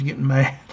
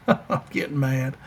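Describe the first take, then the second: First: Said in the usual way. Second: Chuckling through it; laughing. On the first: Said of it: "I'm forgetting names, getting mad". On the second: Real, not acted. Host laughs at forgetting a player's name, laughing. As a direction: laugh at your own frustration.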